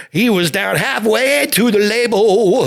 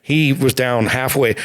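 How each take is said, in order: First: Slow, high and stretched, halfway pushed up; emphatic high retelling. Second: Said in the usual way. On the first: Real, not acted. Telling the host about the singer's bottle, halfway stretched high. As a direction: land halfway hard and slow for effect.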